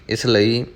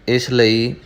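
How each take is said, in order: Both takes have the same delivery.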